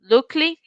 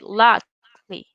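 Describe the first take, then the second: First: The first vowel is a Spanish-style 'oo' sound. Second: The first vowel is the English short 'uh' sound. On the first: The speaker calls it wrong. "We don't say look, lookly" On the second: The speaker calls it right. "We say luckily"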